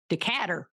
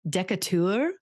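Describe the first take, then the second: First: It is said in an Alabama accent. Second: It is said in a fancy British accent. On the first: "how do we think they pronounce that in Alabama?" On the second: "with a French fancy accent. That's not French, British"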